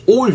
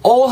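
First: "all" with an open "aw" vowel. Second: "all" with a round Korean o, like "ohl"; wrong o vowel. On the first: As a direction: loosen "all" toward "awl", not "ohl". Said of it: "약간 어 정도로 발음". ("all"의 모음을 '어'에 가깝게 발음) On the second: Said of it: "모음을 o로 발음한다 생각하지 마시고". ("all"을 '올'로 발음) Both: Shown as a demonstration.

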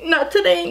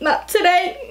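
First: High sassy not today falling firmly; playful diva refusal, settling down. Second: High sassy not today with rising end; playful diva refusal, rising. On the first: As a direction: land today with a firm drop. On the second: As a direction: toss it off high, lifting today. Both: Acted.

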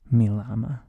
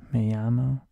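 First: "mi llama" said loudly with an English L; hard L pronunciation. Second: Said in the usual way. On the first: Shown as a demonstration. Teacher corrects himself to students, "llama" with a sounded L. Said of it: "you do pronounce". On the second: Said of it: "turns out I was wrong earlier".

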